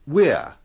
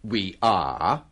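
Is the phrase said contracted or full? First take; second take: contracted; full. First: The two words are joined into one syllable. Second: Both words are said fully and separately. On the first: The speaker calls it right. "but we're" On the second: The speaker calls it wrong. "kita biasanya tidak mengatakan"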